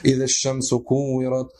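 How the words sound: It is recited in a sad, sorrowful tone. The reciter conveys the solemn meaning. The speaker calls it right. "человек читал с грустным голосом"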